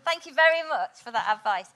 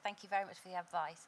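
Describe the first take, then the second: First: It sounds warm and sincere. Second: It sounds flat and insincere.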